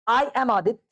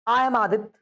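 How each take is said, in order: The two takes are said the same way.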